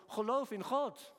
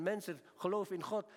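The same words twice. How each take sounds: First: "Geloof in God" said higher, louder and slower, weight on "God"; emphatic repeat. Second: Said in the usual way. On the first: Shown as a demonstration. Preacher urging his congregation, "Geloof in God" higher, louder, slower. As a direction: drive "Geloof in God" home, slow and raised, leaning on "God". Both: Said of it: "En toch zeg ik ook".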